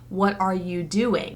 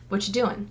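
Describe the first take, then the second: First: Every word is pronounced fully and separately. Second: The word are is dropped in quick speech. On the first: "would never say" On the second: "In real life, I'm going to say"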